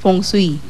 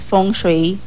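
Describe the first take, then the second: First: It is pronounced the Hokkien way. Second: It is pronounced the Mandarin way. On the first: "sa Hokkien kasi, sa ang pronounce nila feng, feng shui" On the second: "sa Mandarin kasi, ang fo- pronounce niya is feng shui"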